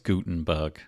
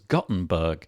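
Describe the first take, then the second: First: The first vowel is a long ooh sound. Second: The first vowel is a short uh sound. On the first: The speaker calls it right. "with sort of like a big ooh sound instead of a uh sound" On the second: The speaker calls it wrong. "I thought it was"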